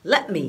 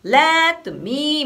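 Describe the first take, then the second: First: "let me" quick, "let" clipped; just a fast clipped "let"; short let. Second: "let" dragged out too long; mock the drawn-out "let"; wrong stretched let. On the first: Teacher giving the correct quick rhythm. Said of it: "って感じになるので". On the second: Teacher showing the wrong long rhythm to avoid. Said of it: "みたいなことはない". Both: Shown as a demonstration.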